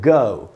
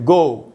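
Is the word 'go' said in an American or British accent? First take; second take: British; American. First: The vowel glides from a schwa toward oo. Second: The vowel is a rounded o sound. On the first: "तो हम इसको पढ़ेंगे ग" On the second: "अगर ये American English होता तो इसको हम पढ़ते गो"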